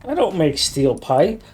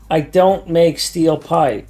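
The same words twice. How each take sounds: First: It is spoken at a normal, quicker pace. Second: It is spoken at a noticeably slower pace.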